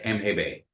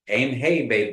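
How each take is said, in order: First: It is said quickly, with short vowels. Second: It is said slowly, with a held vowel. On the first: The speaker calls it wrong. "you don't say it real quick like that" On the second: The speaker calls it right. "that colon says aim hey bay"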